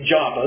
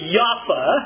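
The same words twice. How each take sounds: First: The name is said in its familiar English form. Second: The name is said in its modern Hebrew form. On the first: "We always say Joppa"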